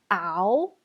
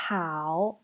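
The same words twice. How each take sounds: First: "ao" starting straight on the vowel, no H; H dropped. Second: "Hao" opening on an audible breathy H; H clearly sounded. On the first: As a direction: say "ao" with no breath at the start. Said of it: "Vous ne pouvez pas dire". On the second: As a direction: blow a clear H into "Hao", as in English. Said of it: "Il faut rajouter le H". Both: Shown as a demonstration.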